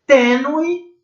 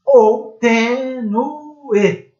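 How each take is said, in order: First: Tênue said quickly, nue as one syllable; diphthong reading, tê-nue. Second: Tênue slowed down, nu and e split apart; hiatus reading, tê-nu-e. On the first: Teacher shows first reading of tênue. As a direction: run the ue together in Tênue. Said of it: "Se eu tiver tênue, eu tenho um ditongo". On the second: Teacher shows second reading of tênue. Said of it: "E se eu tiver tênue, aí eu tenho um hiato". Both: Shown as a demonstration.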